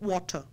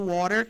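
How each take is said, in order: First: It is said in a British accent. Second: It is said in an American accent. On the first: "no inglês britânico eles falam water" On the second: "no inglês americano"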